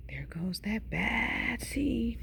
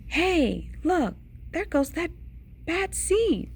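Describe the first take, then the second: First: Slow, hushed mumble; mumbled. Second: High-pitched onlooker's call. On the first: Onlookers mumbling about the seed behind his back, slow hushed mumble. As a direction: mutter it under your breath, drawn out. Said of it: "they mumble". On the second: Onlookers spot the seed going by, high-pitched call. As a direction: pitch it up, pointing someone out. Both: A narrator's reading.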